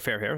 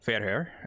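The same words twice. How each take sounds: First: It is pronounced with English-style sounds. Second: It is pronounced with Norwegian-style sounds. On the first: The speaker calls it right. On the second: The speaker calls it wrong. "I pronounced the English name in the Norwegian or Norse Norwegian uh, way"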